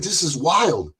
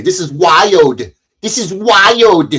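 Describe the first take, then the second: First: Said in the usual way. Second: Slow, drawn-out catchphrase impression, pitched up; Cynthia. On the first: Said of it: "or as Cynthia would say". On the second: Quoting a woman's catchphrase to viewers, slow exaggerated mimicry. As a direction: stretch WILD out long and heavy, mimicking someone. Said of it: "as Cynthia would say".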